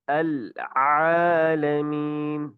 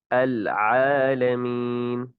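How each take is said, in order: First: العالمین with the throat squeezed, ayn choked; strangled ayn. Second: العالمین very slow, ayn let out freely from the throat; open ayn. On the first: Teacher shows the wrong way: a squeezed throat. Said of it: "اس طرح گلا گھوٹ کر پڑھنا یہ ٹھیک نہیں". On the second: Teacher shows the right ayn, slow and unforced. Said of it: "بلا تکلف ادا کیا، جیسے الحمد". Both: Shown as a demonstration.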